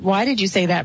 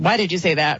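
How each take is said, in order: First: It is asked in a curious tone. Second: It is asked in an accusing tone.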